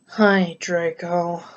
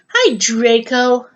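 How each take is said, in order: First: It is said in a low, depressed voice. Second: It is said in an ordinary, neutral voice. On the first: The speaker calls it right. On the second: The speaker calls it wrong.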